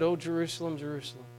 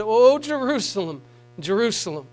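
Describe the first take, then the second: First: "Oh, Jerusalem" softer, the second "Jerusalem" fading almost to nothing; pained lament. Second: Tearful lament. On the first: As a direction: grieve it quietly, the voice dying away. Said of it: "you could hear the pain in his voice". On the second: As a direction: cry it out and then let it sink. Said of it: "tears in his eyes when he said". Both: Retold or imitated.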